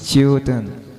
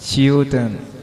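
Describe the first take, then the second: No difference in how they are said.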